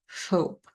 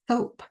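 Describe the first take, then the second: First: The s is lisped with air escaping sideways. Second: The s is lisped with the tongue between teeth. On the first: "when you blow air out the sides of your mouth" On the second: "the tongue sticks out between the teeth. When you say S, it sounds like th"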